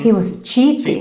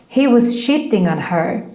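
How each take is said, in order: First: Cheating is said with a standard English ch. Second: Cheating is said with a Swedish sh-like sound.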